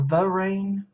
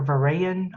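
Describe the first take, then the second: First: Varane said as va-RAIN, slow and unsure; first try at the name. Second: Varayan said as va-RAY-an, three syllables; second try at the name. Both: Shown as a demonstration. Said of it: "I don't know".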